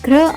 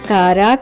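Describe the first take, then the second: First: The two consonants are joined without a vowel. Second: A vowel separates the two consonants. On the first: The speaker calls it right. "క్ర అవుతుంది" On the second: The speaker calls it wrong. "ఉచ్చారణ కారా కాదు"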